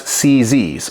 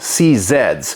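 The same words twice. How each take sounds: First: The letter Z is said as 'zee'. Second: The letter Z is said as 'zed'. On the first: This is the American way of naming the guns. "we call them C Zs here in the United States" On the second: This is the Australian way of naming the guns. "as my friend Andrew from Australia calls them"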